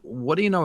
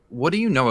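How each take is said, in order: First: The question sounds friendly and curious. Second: The question sounds aggressive and challenging. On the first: The listener feels genuinely asked for their view. The speaker calls it right. "delivered with the right amount of curiosity in tone" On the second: The listener feels pressured and attacked. The speaker calls it wrong. "it could sound aggressive"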